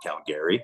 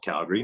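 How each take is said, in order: First: It is pronounced the way Eastern Canadians say it. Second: It is pronounced the local Calgary way. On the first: The speaker calls it wrong. "not Calgary, like Easterners always say" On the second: The speaker calls it right. "it is pronounced Calgary"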